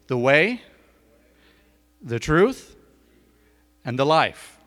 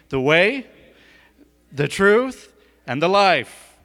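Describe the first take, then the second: First: It is said in a plain, ordinary way. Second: It is said forcefully, with strong conviction.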